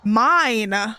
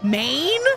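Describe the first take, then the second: First: The vowel sounds like the 'i' in wine. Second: The vowel sounds like the 'ay' in rain. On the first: The speaker calls it right. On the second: The speaker calls it wrong.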